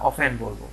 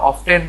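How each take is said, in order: First: Second often as "o-fen"; often with silent t, "off-en". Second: First often as "of-ten"; often with a clear t, "off-ten"; sounded t. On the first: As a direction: say often without any t sound. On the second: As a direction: say often with the t pronounced. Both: Shown as a demonstration. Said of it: "often বলবো না often বলবো".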